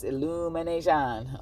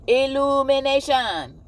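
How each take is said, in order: First: Said in the usual way. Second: ILLUMINATION called out high, loud and drawn out; big stretched-out announcement of "Illumination"; loud proclamation. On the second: Real, not acted. Announces the word, then repeats it.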